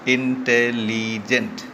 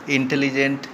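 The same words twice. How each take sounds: First: intelligent slowly parted into four syllables. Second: Said in the usual way. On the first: Shown as a demonstration. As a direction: tap out each beat of intelligent, unhurried. (Intelligent শব্দটি প্রতি সিলেবলে থেমে ধীরে) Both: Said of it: "পলিসিলেবলিক word".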